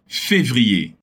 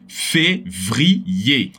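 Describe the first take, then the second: First: The word is said in one smooth piece. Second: The word is broken into separate syllables. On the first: "a palavra toda" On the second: "vamos separar em sílabas"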